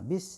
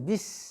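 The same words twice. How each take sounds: First: The closing sound is said lightly and naturally. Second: The closing sound is pressed hard and deliberately. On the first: The speaker calls it right. "Bis biasa aja" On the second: The speaker calls it wrong. "ditekan lagi bis, enggak juga"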